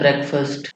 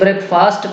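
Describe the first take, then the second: First: It is said as one combined word. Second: It is said as two separate words.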